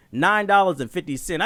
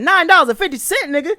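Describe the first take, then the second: First: Said in the usual way. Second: High, loud repeat in disbelief; outraged disbelief. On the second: Retold or imitated. Customer reacting to a tiny trade-in total, outraged. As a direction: shoot it back as an incensed question. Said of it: "I was mad as shit".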